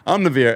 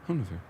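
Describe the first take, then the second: First: It is said at normal, louder volume. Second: It is said quietly.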